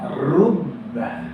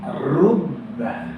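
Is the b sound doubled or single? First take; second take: doubled; doubled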